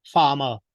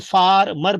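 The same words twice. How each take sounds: First: FARMER as FAH-muh; correct pronunciation. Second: FARMER with both Rs sounded; slow FAR-MER, Rs pronounced; wrong pronunciation. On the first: Teacher corrects to farmer, no R sounded. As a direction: say FARMER with silent Rs. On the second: Teacher shows farmer wrongly, Rs sounded. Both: Shown as a demonstration. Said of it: "because R is not spoken".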